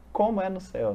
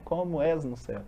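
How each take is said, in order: First: Said in the usual way. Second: "és" said clearly with its final s, as the prayer's correct form; corrected wording. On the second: Shown as a demonstration. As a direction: correct it to "és", sounding the s. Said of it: "né?".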